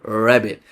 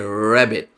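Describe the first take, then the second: The two takes are said the same way.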